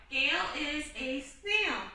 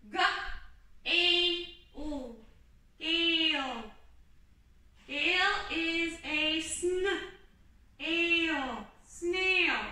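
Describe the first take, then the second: First: Said in the usual way. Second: Slow, stretched sounding out, blending sn and ale into snail; sounding out slowly. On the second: Shown as a demonstration. Teacher showing the kids how to sound out a sentence slowly. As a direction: model decoding a word sound by sound. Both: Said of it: "Let's start".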